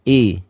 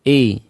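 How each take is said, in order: The two takes are said the same way.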